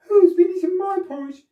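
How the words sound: It is said in a middle-sized voice.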